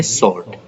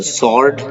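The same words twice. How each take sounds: First: स्वॉर्ड with silent w, like sord; स्वॉर्ड said right; correct sword. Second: स्वॉर्ड with the w sounded; स्वॉर्ड with w, wrong; wrong sword. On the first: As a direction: model स्वॉर्ड without w. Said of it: "इसको हम बोलेंगे". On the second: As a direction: show स्वॉर्ड as swaord. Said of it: "नहीं बोलेंगे". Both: Shown as a demonstration.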